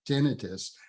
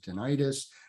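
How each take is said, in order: First: The stress is on the first syllable. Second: The stress is on the second syllable. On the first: "with the emphasis on the first syllable, the tin" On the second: "many, many people pronounce it tinnitus"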